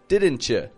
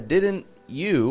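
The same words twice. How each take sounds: First: The t and y blend into ch. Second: The t and y sounds stay separate. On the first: The speaker calls it right. "but didn't you" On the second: The speaker calls it wrong. "it's not a didn't you"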